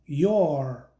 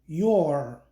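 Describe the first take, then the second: First: The two words are merged into one syllable. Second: The same.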